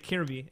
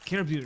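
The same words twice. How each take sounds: First: The name ends in a plain, ordinary sound. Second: The name ends in an unusual, strange sound.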